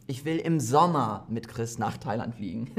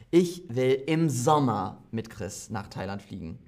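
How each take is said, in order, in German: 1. Das Wort "Sommer" ist betont. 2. Das Wort "Sommer" ist betont.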